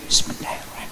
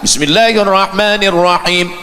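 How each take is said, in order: First: It is recited quietly, almost silently. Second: It is recited aloud.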